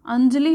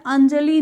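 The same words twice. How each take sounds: First: Said in the usual way. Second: अंजलि as "an-ja-lee", long final ee; louder अंजलि with drawn-out last vowel; long-vowel misspelling. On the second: Shown as a demonstration. Teacher showing the wrong spelling, अंजलि with long final ee. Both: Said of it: "ई की मात्रा बड़ी नहीं".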